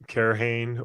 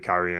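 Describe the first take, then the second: First: The name is said like 'Kerhane'. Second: The name is said like 'Kyrian'. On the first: The speaker calls it wrong. "I had pronounced it like Kerhane" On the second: The speaker calls it right. "I started hearing other people say Kyrian"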